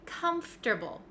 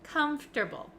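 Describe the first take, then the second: First: The 'or' is dropped, going straight from f to t. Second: The 'or' is dropped, going straight from f to t.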